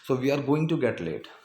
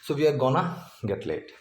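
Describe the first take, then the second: First: Going to is said as two full words. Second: Going to is merged into one word, gonna. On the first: "तो गोइंग टू get late है ये" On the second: "गोइंग टू को मर्ज करके गोना कर दिया"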